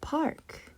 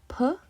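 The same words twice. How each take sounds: First: Park blended into one whispered word. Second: Each sound of P-R-K said slowly and apart; stretched-out sounds. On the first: Teacher blending the stretched sounds back into one whispered word. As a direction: put the sounds of Park back together, softly. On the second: Teacher stretching out a word for a young reader, sound by sound. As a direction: sound out P-R-K one sound at a time for the child. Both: Shown as a demonstration. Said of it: "we can stretch out this word".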